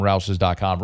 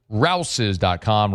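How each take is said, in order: First: Said in the usual way. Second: Slow ad tagline. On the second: Acted. Ad read tagline.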